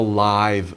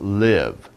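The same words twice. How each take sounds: First: It is said with the adjective pronunciation. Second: It is said with the verb pronunciation. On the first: Something is happening in person, not recorded. "It's a live band" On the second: To continue to be alive. "But if you say it as a verb, it's live"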